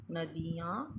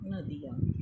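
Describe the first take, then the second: First: "नदियाँ" as na-dee-yaan; wrong-form demo, long ee in "नदियाँ"; mispronounced long i. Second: Said in the usual way. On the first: Shown as a demonstration. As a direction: stretch the middle vowel of "नदियाँ". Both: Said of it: "छोटी ई के स्थान पर बड़ी ई".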